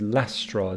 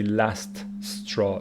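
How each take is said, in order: First: The t is weak and the s sounds merge. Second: The t and both s sounds are pronounced separately. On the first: The speaker calls it right. "This T is not that strongly pronounced, ... we hear one S sound" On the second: The speaker calls it wrong. "so I don't say last straw"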